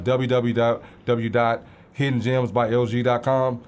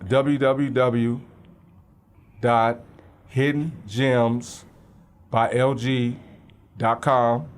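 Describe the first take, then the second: First: It is said fast. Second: It is said slowly.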